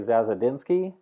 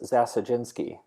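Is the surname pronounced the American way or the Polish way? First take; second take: American; Polish. First: It is said the American English way. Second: It is said the Polish way, with a J sound. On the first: "in American English, we would say" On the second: "in Polish, it's Zasajinsky. The D Z is a J sound"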